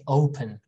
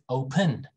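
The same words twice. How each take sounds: First: The stress is on the first syllable. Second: The stress is on the second syllable. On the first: The speaker calls it right. "we say open" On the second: The speaker calls it wrong. "We don't say open"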